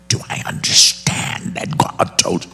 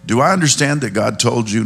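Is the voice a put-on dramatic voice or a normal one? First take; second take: dramatic; normal. First: It is spoken in a put-on dramatic voice. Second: It is spoken in a plain, normal voice. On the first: The speaker sounds obviously evil. The speaker calls it wrong. "They talk in the voice like" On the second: The speaker sounds harmless and ordinary. The speaker calls it right. "I think he came in just sounding very normal"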